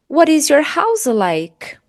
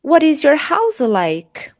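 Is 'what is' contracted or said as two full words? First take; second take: full; full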